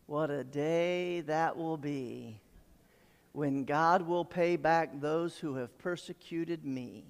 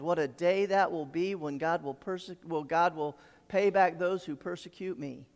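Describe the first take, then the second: First: Slow, drawn-out, low recital; slow, measured declaration; savoring slowly. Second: Said in the usual way. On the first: Acted. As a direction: stretch out the words with weight, softer and lower. Relishing a verse, then repeats it.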